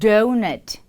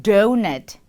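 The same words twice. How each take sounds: The two takes are said the same way.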